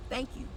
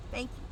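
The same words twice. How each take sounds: The two takes are said the same way.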